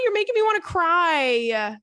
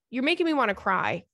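First: High, loud voice welling up; near tears. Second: Said in the usual way. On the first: Real, not acted. Host overcome by the letter, near tears. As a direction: let it crack.

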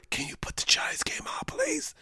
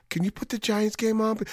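First: Embarrassed whisper to the bartender. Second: A softer, embarrassed ask; sheepish, without pride. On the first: Ashamed fan asking the bartender for the game, whispered. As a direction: whisper it so nobody hears you're a Giants fan. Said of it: "You gotta whisper". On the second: Fan asking the bar to change the channel, sheepish. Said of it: "you can't even say it with pride". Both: Retold or imitated.

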